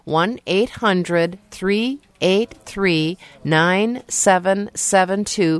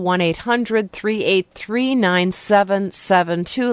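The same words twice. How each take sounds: First: The number is said more slowly. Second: The number is said at normal speed.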